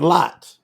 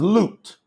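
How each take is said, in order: First: The vowel is an open 'ah' sound. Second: The vowel is a rounded 'oo' sound. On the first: The speaker calls it wrong. "Lot is not Lot. That's a lie" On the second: The speaker calls it right. "the second letter in Lut's name is a oo"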